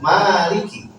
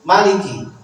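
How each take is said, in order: First: The first vowel is held long. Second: The first vowel is kept short. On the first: "Pertama dibaca mat ... al alif ba'da mim" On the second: "yang kedua bidunil mad"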